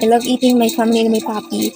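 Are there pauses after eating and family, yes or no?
no. It is said without pauses inside.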